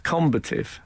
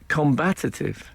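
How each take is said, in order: First: The stress is on the first syllable. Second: The stress is on the second syllable. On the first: The speaker calls it right. "a word they used a couple of times was combative" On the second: The speaker calls it wrong. "I have always said um, combative, a bit like competitive"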